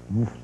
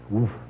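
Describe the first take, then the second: The two takes are said the same way.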